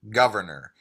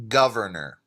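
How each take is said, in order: First: The R sounds are clearly pronounced. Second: The same.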